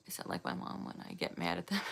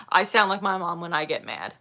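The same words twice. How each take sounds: First: Fast unvoiced whisper; a quick hushed whisper; whispered aside. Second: Said in the usual way. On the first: Real, not acted. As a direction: breathe it quickly under your breath.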